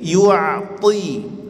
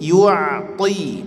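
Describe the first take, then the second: First: The t sound is heavy and strong. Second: The t sound is heavy and strong.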